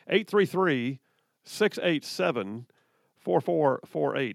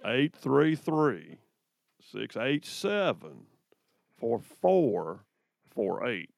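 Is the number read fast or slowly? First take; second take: fast; slowly. First: The number is read fast. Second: The number is read slowly.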